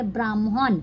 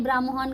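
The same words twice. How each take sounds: First: "ब्राह्मण" as braam-hon, rounded o; m before h. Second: "ब्राह्मण" as braa-man, no audible h; Hindi reading. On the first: Teacher shows learners Bengali reading, "ब्राह्मण" said braam-hon. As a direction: sound m, then h in "ब्राह्मण". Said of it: "म को पहले पढ़ेंगे". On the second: Teacher gives the Hindi meaning, "ब्राह्मण" said braa-man. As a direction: end "ब्राह्मण" in plain -man. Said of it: "ब्राह्मण का मतलब ब्राह्मण". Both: Shown as a demonstration.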